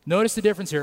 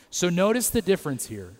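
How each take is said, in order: First: Louder and higher, pressing the point; emphatic repeat. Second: Said in the usual way. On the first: Shown as a demonstration. Pastor repeating for the congregation, louder and emphatic. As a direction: say it again, hammering it home.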